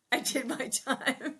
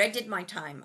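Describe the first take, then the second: First: Slow, drawn-out mock Ralph; fond imitation of Ralph. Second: Said in the usual way. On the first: Sister fondly mimicking her late brother, slow and drawn out. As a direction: stretch each word out like Ralph did. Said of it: "I love when he would say that". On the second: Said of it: "He goes".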